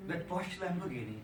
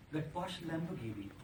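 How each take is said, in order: Both takes have the same delivery.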